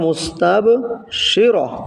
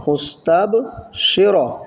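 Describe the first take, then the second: First: The word ends on an open vowel 'ra'. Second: The word ends on an open vowel 'ra'.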